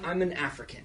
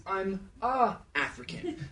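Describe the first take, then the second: First: "an African" with the N sounded. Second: "I'm a African" with plain "a", slow. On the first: Mocking the crowd's wrong take, soft "an". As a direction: let the N in "an" be heard. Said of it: "Some people are saying". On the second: Correcting the crowd's lyric, slow "a". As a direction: say "a African" without the N. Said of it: "Note that the song is". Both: Shown as a demonstration.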